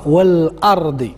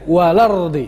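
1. يُقال مع همزة قطع، مثل 'wal-ardi'. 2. يُقال بدون همزة قطع، مثل 'walardi'. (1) "كيقراها والأرضي كيف هي مكتوبة" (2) "كننطقوها بهذه الطريقة هذه لارضي لارضي"

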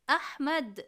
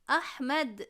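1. Kelime d sessiz harfiyle biter. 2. Kelime d sessiz harfiyle biter.

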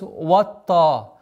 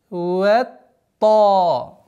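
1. Первое 'wa' звучит твёрдо, под влиянием 't'. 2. Первое 'wa' звучит мягко, без влияния 't'. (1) "чтобы звук вау не произносилось ватта, так как э, твердый звук влияет на впереди стоящий звук" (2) "нужно начинать ват, ватта"

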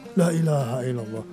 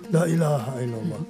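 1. 'La' yang kedua panjang, yang pertama pendek. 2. 'La' yang kedua panjang, yang pertama pendek.

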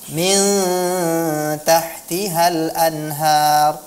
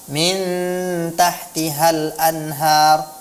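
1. Huruf n pada min disamarkan secara sengau. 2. Huruf n pada min diucapkan dengan jelas. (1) "seharusnya dibaca dengan ikhfa" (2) "tidak di ikhfakan dia tapi diizharkan"

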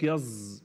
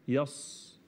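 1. صوت السين مجهور، قريب من الزاي. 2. صوت السين مهموس وصفيري. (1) "قلب الصاد الى حرف مجهور ده خطأ" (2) "هي يص"

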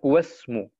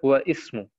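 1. Die Wörter werden ohne i-Laut dazwischen verbunden. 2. Der i-Laut wird ausgesprochen, und die Wörter bleiben getrennt. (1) "in der Mitte habe ich gesagt Wasmu" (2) "Ich habe nicht gesagt Wa Ismu"

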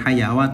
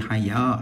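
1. Ada bunyi 'wa' tambahan setelah vokal panjang. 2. Vokal panjang berakhir tanpa tambahan apa pun. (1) "bukan hayawa" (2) "tapi haya"

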